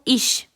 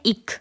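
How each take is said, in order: First: The word ends in a soft sh-like sound. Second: The word ends in a hard k sound. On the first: "C H अगर अकेला हो तो इश" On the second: "अगर आप Berlin Brandenburg की तरफ आते हो जर्मनी में, तो ये हो जाता है इक"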